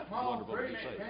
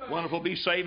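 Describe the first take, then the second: First: Mocking it back, much higher and far softer; sarcastic echo. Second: Said in the usual way. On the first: Preacher mocking a hypocrite's pious line, sarcastic. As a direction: throw their words back with scorn. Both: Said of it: "don't you show your dirty face".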